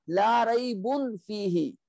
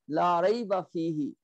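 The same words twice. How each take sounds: First: "raybun" ending in a full -un; heavy noon ending. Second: "rayba" ending in a short open a, no n; light ending. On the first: Teacher showing the normal negation, heavy -un ending on "raybun". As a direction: sound the n in "raybun". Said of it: "which was normal negation". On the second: Teacher reciting the emphatic negation, light -a ending on "rayba". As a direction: drop the noon, say "rayba". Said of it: "You make it light". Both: Shown as a demonstration.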